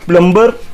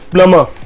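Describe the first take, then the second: First: The b sound is pronounced. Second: The b sound is silent. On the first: The speaker calls it wrong. "It's not plumber" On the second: The speaker calls it right. "its pronunciation is P L U H hyphen M U H"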